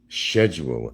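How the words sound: It is said with a British pronunciation. The speaker calls it right. "they pronounce it properly"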